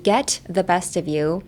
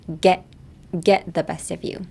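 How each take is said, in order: First: "Get" with its final T sounded; careful, separate T ending "Get"; pronounced T. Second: "Get" with the final T unreleased; linked "get the", T left silent. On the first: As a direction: release the T in "Get" before "the". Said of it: "So instead of saying". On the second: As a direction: swallow the T in "get" before "the". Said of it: "The T in get is silent". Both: Shown as a demonstration.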